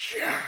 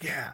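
First: It is screamed with wild, full enthusiasm. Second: It is cheered with mild enthusiasm. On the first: "screaming and cheering" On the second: "they do it the first time"

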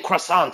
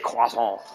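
First: The word is said with an English pronunciation. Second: The word is said with a French pronunciation. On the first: The speaker calls it wrong. "You do not say croissant" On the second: The speaker calls it right. "you say croissant"

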